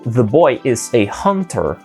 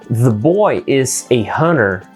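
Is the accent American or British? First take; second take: British; American. First: It is spoken with a British English accent. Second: It is spoken with an American English accent.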